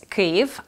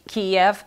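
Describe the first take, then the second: First: The name is said the non-Russian way. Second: The name is said the Russian way. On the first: This is the correct name of the capital. The speaker calls it right. "It's Kyiv" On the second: This is the Russian version of the name. The speaker calls it wrong. "Kiev is the Russian version"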